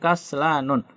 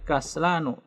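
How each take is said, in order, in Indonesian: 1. Kata ini berakhir dengan tambahan 'n' di akhir. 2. Kata ini berakhir dengan bunyi 'nu' biasa. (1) "bukan kaslanun" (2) "Lihat kaslanu"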